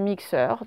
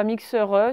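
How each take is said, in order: First: Said in the usual way. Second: "mixeur E" with an audible schwa added after the R; extra final E. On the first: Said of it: "c'est mixeur". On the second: Shown as a demonstration. Teacher warning pupils of a spelling trap, extra final E. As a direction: sound a wrong extra E at the end of "mixeur E". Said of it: "il n'y a pas de E, hein, c'est pas mixeur E".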